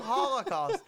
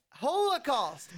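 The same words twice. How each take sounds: First: High, loud HOLL-uh-cost for Holocaust; Holocaust with short O. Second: High, drawn-out HOLE-uh-cost for Holocaust; Holocaust with long O. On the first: Co-host allows both versions, Holocaust as HOLL-uh-cost. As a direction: raise Holocaust, first syllable like holler. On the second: Co-host gives his bottom line, Holocaust as HOLE-uh-cost. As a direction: stretch Holocaust out, first syllable like hole. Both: Shown as a demonstration. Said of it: "but it's also".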